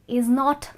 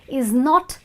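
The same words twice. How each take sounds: The two takes are said the same way.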